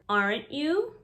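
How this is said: The R is fully pronounced with rounded lips. "Notice the rounded R's"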